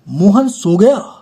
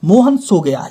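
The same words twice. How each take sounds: First: It is said as a surprised exclamation. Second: It is said as a plain, level statement. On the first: Surprise that Mohan has fallen asleep. "इसमें हम कहेंगे आश्चर्य" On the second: Mohan has fallen asleep, simply stated. "ये है साधारण वाक्य"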